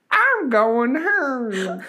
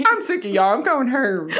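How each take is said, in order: First: High, slow granny voice; drawn-out old lady whine; man doing a woman's voice. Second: High granny voice; quavery old lady saying going Herm; man doing a woman's voice. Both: Pretend. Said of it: "Sounds like an old lady, a granny".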